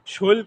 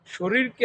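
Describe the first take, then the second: First: শৈল squeezed to one syllable, l for r; Gazipur dialect. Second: Said in the usual way. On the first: Shown as a demonstration. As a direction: say শৈল like "shoil", no r. (গাজীপুরের উচ্চারণে শৈল, র-এর বদলে ল) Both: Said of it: "গাজীপুরের আঞ্চলিক ভাষায়".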